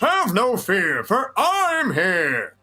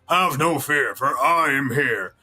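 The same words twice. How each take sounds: First: Higher, very slow, throaty heroic boom; All Might with throat. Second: Just deep, slightly slow hero voice; a lightly voiced deep hero; only deep, no throat; deep All Might, no throat. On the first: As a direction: push it through the throat like a grand hero. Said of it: "step two includes using the throat". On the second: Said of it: "So instead of". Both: Shown as a demonstration.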